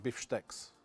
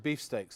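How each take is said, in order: First: It is said with a Russian accent. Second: It is said with an English accent.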